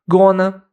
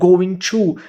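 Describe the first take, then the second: First: The words are shortened and run together. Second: Both words are pronounced fully and separately.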